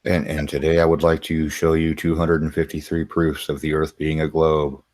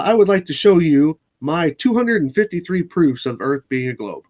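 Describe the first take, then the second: First: Droning announcement held on one note; monotone voice. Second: Said in the usual way. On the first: Shown as a demonstration. Redoing the globe proofs intro as a joke, in a monotone voice. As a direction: present it in a dead-level monotone. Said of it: "I didn't do the monotone voice". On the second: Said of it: "not a monotone voice".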